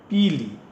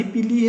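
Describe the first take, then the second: First: "पी ली" as two words, verb first; "पी ली" said as a falling two-word verb phrase; split into two words. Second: "पीली" said as one unbroken word; "पीली" as a single word, the colour; joined as one word. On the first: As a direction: separate "पी" from "ली", falling at the end. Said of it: "उसमें जो है चाय पी ली". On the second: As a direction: run "पीली" together without a break. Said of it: "पीली एक साथ है". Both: Shown as a demonstration.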